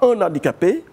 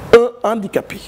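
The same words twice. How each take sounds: First: A linking n sound joins the two words. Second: No linking sound joins the two words. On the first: The speaker calls it wrong. "On ne dit pas un handicapé" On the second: The speaker calls it right. "on dit un handicapé"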